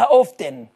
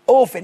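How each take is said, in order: First: The t sound is pronounced. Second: The t sound is silent. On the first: "فساعات تبقى سايلنت وساعات لا" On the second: "اوفن التي سايلنت"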